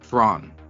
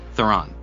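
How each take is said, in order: First: The name sounds like the single syllable 'Thrawn'. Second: The name is said the common English way. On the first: This is closer to the Afrikaans pronunciation. The speaker calls it right. "The name is supposed to be pronounced more like Thrawn" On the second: This is how most interviewers say it. The speaker calls it wrong. "They say Charlize Theron"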